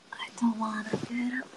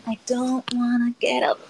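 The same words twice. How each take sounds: First: Whispered, breathy and unvoiced; whispering. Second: Said in the usual way. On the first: Real, not acted. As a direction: whisper it under your breath. Whining about getting out of bed.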